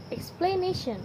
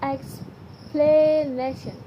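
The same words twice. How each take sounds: First: Said in the usual way. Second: "explanation" stretched out slowly, each syllable spelled out; slow careful reading. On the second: Shown as a demonstration. Teacher reading the word list aloud to the class, slow and deliberate. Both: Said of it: "Read the following twenty items aloud".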